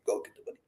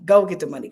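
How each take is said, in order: First: The same catchphrase dropped to a soft whisper; whispered slogan. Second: The catchphrase pushed out a bit louder; hyped slogan. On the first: Host whispering her slogan to viewers as she fades out. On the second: Host hyping tomorrow's session to viewers, slogan pushed out. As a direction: sell the slogan with a little punch. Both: Real, not acted.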